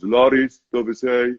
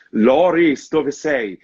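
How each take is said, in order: First: Deadpan, emotionless line reading; no emotion. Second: Anguished, high and louder call; despairing cry. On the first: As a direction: say it without any feeling. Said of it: "with no emotion whatsoever". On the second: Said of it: "she said it with such a despair in the voice". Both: Retold or imitated.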